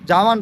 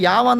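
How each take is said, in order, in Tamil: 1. இந்த வார்த்தை J ஒலியில் தொடங்குகிறது. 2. இந்த வார்த்தை Y ஒலியில் தொடங்குகிறது. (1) "நம்ம இங்கிலீஷில் வந்து ஜாவான் ப்ரொனவுன்ஸ் பண்ணிடும்" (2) "அவங்க செக் வேர்டில் வந்துட்டு யாவான் தான் ப்ரொனவுன்ஸ் பண்ணுறாங்க"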